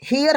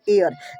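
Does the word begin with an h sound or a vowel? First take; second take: h sound; vowel. First: The word begins with an h sound. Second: The word begins directly with a vowel. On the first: This is how the spelling would suggest reading it. "हियर होना चाहिए" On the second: This is how the word is actually read. "पढ़ते एयर"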